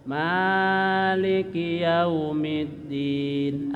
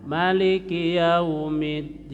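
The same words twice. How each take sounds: First: Maliki yaumiddin chanted slowly, ma held long; long Maliki recitation. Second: Maliki yaumiddin chanted with a short ma; short Maliki recitation. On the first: Teacher recites the Hafaz long reading for the class. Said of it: "kalau Imam Hafaz panjang". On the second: Teacher shows the other imams' short reading. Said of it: "imam lain dipendekkan". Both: Shown as a demonstration.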